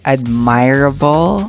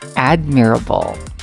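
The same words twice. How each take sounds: First: It is said like 'admire' plus 'able'. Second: It is not said like 'admire' plus 'able'. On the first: The speaker calls it wrong. "kasi nga from the word admire" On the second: The speaker calls it right. "the correct pronunciation of that is admirable"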